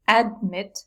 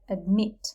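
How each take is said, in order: First: The stress is on the first syllable. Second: The stress is on the second syllable. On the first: The speaker calls it wrong. "we don't say admit" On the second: The speaker calls it right. "we say admit. The stress is on this vowel"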